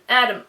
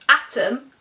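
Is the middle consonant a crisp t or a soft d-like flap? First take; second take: d-like flap; crisp t. First: The middle t is a soft d-like flap. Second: The middle t is a crisp, clear t.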